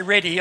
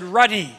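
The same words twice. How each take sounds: First: "ready" with an eh vowel; misheard word "ready". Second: "ruddy" with an uh vowel; intended word "ruddy". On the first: Preacher correcting the crowd, "ready" with an eh vowel. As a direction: say "ready" as the word not meant. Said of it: "I didn't say ready". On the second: Preacher correcting the crowd, "ruddy" with a clear uh vowel. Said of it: "I said ruddy". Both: Shown as a demonstration.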